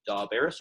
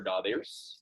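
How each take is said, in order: First: Daberis with a short, open E, as in "bet". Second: Daberis with a long E, close to "bay". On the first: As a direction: say the middle of Daberis like "bear". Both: Shown as a demonstration. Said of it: "long E or a short E".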